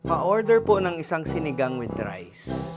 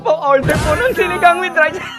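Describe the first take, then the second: First: It is said in a steady, normal voice. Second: It is said laughing, as if being tickled.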